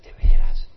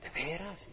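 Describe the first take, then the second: First: Loud, high astonished ¿De veras? as if hope bursts in; amazed question. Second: Softer, quiet ¿De veras? almost to oneself; quiet echo of amazed disbelief; hushed wonder. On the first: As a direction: burst out in disbelief, much louder. Sinner amazed at forgiveness. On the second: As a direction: ask it again under the breath. Sinner asks again, softly. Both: Acted.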